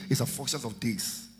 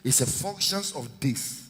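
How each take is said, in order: Both takes have the same delivery.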